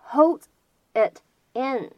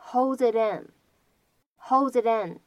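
First: "holds it in" as separate words, T unlinked. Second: "holds it in" run together, T lightly flapped; linked, flapped T. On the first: Teacher showing the three words before linking, unlinked. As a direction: say "holds", "it", "in" one by one. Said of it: "这样的三个单词呢出现在一起". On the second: Teacher demonstrating connected speech, linked "holds it in". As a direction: link "holds it in" into one word with a flap T. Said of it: "我们呢可以读成是". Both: Shown as a demonstration.

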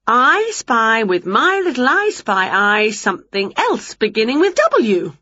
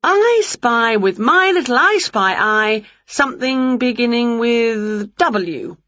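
First: A hint of a playful witch drawing out her riddle; Winnie's voice. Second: Lightly voiced witch, slow and teasing; a hint of a playful witch drawing out her riddle; Winnie's voice. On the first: Winnie plays I spy again. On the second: Winnie teasing Wilbur with a slow, playful riddle.

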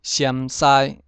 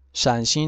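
First: 陕西 as "siám-sai", louder; Hokkien reading. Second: Said in the usual way. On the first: Shown as a demonstration. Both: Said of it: "省份从第一个".

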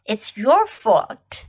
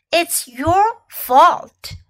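First: Said in the usual way. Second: Blaming. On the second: Shown as a demonstration. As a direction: lean hard on "your", slowly. Teacher drills phrase twice.

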